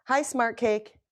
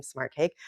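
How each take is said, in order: First: Said in the usual way. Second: Lower, softer, rising as if tasting it; savoring the name. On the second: Real, not acted. Live host admiring viewer's name Smart Cake, savoring it. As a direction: repeat the name fondly to yourself. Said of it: "I like that name".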